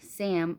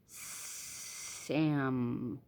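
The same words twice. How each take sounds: First: The word is said briefly, at normal length. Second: The word is stretched out, first and last sounds dragged. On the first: "instead of saying" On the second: "talking like a snake... elongate the words, make them longer"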